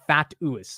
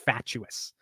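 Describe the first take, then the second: First: The middle consonant is a plain 't' sound. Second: The middle consonant is a 'ch' sound. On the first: The speaker calls it wrong. "I didn't do the C H" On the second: The speaker calls it right. "if I followed the instructions, I would have said it right"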